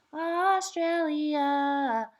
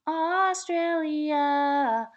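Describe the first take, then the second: No difference in how they are said.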